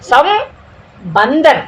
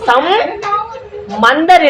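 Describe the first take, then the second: First: The middle consonant is a b sound. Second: The middle consonant is an m sound. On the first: The speaker calls it right. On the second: The speaker calls it wrong.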